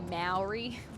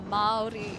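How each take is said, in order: First: The word is said in an anglicized way. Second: The word is said with a long first vowel. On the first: The speaker calls it wrong. "a lot of people will say Maori, but that is not the correct pronunciation" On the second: The speaker calls it right. "Maori is the correct pronunciation"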